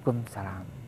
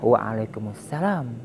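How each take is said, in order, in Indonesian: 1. Hanya suku kata terakhir dari salam yang diucapkan. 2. Seluruh salam diucapkan dengan setiap suku katanya. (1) "bukan kumsalam"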